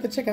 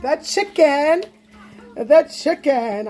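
First: Said in the usual way. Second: Slow, stretched-out unveiling, pitched up; playful drumroll-style reveal; showy reveal. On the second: Pretend. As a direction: present it grandly, drawing out each word. Unveiling the item after announcement.

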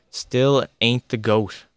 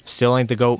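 First: "Still ain't the goat" drawn out slowly, each word weighted; slow emphatic repeat. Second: Said in the usual way. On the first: Real, not acted. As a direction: hammer the point home slowly.

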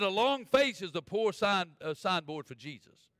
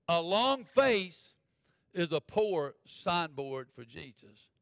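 First: Said in the usual way. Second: LONG FACE drawn way out, with pauses; slow, emphatic repeat. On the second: Real, not acted. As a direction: spell it out very slowly, stretching "long face". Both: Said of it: "Let me say that again".

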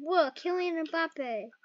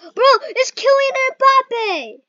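First: Quiet. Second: Excited shout. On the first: The same name said again, softly. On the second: Excited shout on spotting the player. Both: Real, not acted.

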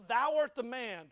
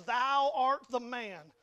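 First: Slow, firm pronouncement, a bit louder; deliberate, weighty accusation; prophet's accusation. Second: Loud, drawn-out pronouncement, each word weighted; forceful prophet confronting a king; finger-pointing accusation. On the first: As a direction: quote the prophet confronting the king. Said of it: "he comes before and he says". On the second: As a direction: point the finger and proclaim it slowly. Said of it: "Nathan points his finger at". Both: Retold or imitated.

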